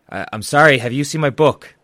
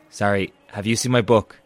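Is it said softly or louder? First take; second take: louder; softly. First: It is said a little louder. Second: It is said softly.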